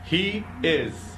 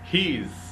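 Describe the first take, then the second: First: Both words are said fully and separately. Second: The words are merged into one short syllable.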